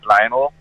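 It is said with an English pronunciation.

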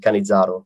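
The name is said with an Italian pronunciation. "if you were in Italy and you were saying it, it might be Cannizzaro"

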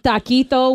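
It is said with a Spanish accent. The speaker calls it right. "with like an accent"

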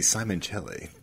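The name is given an exaggerated Italian pronunciation. Someone is guessing and showing off a foreign flair. The speaker calls it wrong. "trying to be all like Italian"

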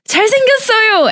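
It is said with strong, excited emphasis. He is so good looking. "Exclamation mark"

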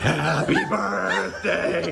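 It is said in a creepy put-on voice.

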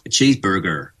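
The R sounds are pronounced, American style. The listener would understand it. The speaker calls it right. "You've got to put that R in there"

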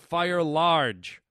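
It is said imitating an East Indian accent.

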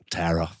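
The name is said with an American accent. "I was trying to put the American accent on it"

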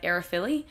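The name is said with an Australian accent. The speaker calls it wrong. "the Aussie way of pronouncing it would probably be like"

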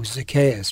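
The name is said with scorn and contempt. The speaker despises the person named. "in a way of people despised him"

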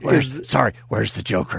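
It is said in a deep, gravelly put-on voice. The speaker calls it right.

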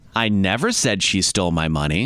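The word 'never' is stressed. The speaker denies ever having said it. "meaning that I never said it"

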